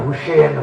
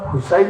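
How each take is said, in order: First: The name ends with a short 'sen' sound. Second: The name ends with a long 'sain' sound. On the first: The speaker calls it wrong. "সেন তো হিন্দুর মাঝে এক জাত" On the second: The speaker calls it right. "মুসলমান হুসাইন হইতে"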